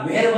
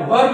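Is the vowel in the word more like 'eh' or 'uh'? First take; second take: eh; uh. First: The vowel sounds like 'eh' before the r. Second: The vowel sounds like 'uh' before the r. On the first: The speaker calls it wrong. "व्हेर्ब नाही म्हणत" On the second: The speaker calls it right. "याला व्हर्ब म्हणतात"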